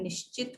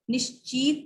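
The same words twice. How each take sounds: First: "निश्चित" softer, short "chit"; low, light "nish-chit" for "निश्चित"; correct pronunciation. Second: "निश्चित" with long "cheet"; "nish-cheet" for "निश्चित"; wrong pronunciation. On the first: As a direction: keep the second I of "निश्चित" brief. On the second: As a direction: stretch the second vowel of "निश्चित". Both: Shown as a demonstration. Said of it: "निश्चित नहीं होता है".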